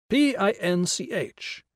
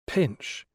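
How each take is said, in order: First: "P I N C H" spelled letter by letter, slowly. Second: Said in the usual way. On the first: Shown as a demonstration. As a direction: spell out "P I N C H" one letter at a time.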